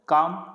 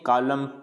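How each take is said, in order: First: The l is silent. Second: The l is sounded. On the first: The speaker calls it right. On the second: The speaker calls it wrong.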